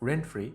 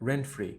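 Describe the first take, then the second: The two takes are said the same way.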